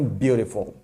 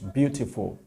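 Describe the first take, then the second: First: The word is said in an American accent. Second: The word is said in a British accent. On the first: "os americanos dizem beautiful" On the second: "sobretudo os britânicos"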